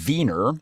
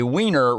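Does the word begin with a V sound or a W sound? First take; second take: V sound; W sound. First: The word begins with a V sound. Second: The word begins with a W sound. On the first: The speaker calls it right. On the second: The speaker calls it wrong.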